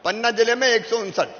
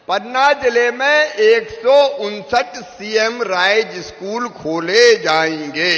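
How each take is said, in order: First: Said in the usual way. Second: पन्ना जिले में एक सौ उनसठ said slow and loud, each word punched; slow, loud emphasis on एक सौ उनसठ; slow emphatic repeat. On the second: Shown as a demonstration. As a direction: hammer the number home slowly and loudly. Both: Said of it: "repeated with emphasis".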